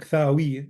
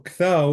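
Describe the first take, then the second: First: The word ends with a final 'ee' vowel. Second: The word ends without a final vowel. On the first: "It actually makes sense to say Ktawi" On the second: "the yod is silent"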